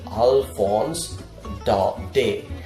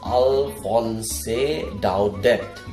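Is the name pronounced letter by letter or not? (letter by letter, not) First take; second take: not; letter by letter. First: The name is not read out as spelled. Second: The name is read out as it is spelled. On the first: The speaker calls it right. "We pronounce it Alphonse Daudet" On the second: The speaker calls it wrong. "It is spelled as Alphonse Daudet, but we do not pronounce it like that"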